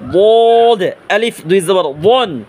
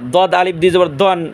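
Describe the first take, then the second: First: The first consonant is heavy, with a thick sound. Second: The first consonant is light, like a plain d. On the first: The speaker calls it right. "মোটা আওয়াজে" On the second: The speaker calls it wrong. "দালের উচ্চারণের মতো দদের উচ্চারণ হবে। এটা আমরা করবো না।"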